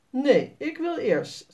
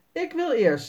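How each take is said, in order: First: Higher and slow, stubbornly insisting; stubborn girl, Sanne. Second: Put-on higher eager child's voice, insisting; a boy claiming the first turn; eager boy, Jasper. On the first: Sanne refuses to let Jasper go first, slow and insistent. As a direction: draw it out like a stubborn little girl. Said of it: "zegt Sanne". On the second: Jasper tells the others he goes first, eager and higher. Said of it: "zegt Jasper". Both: A narrator's reading.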